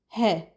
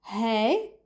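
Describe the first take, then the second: First: "he" as "heh", no glide; regional short form. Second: "hey" with an "ay" glide; regional short form. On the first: Teacher giving the other feminine form, plain-vowel "he". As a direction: keep "he" to one pure eh vowel. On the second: Teacher showing the feminine short form, gliding "hey". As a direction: say "hey" long, gliding at the end. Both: Shown as a demonstration. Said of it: "we say hey or".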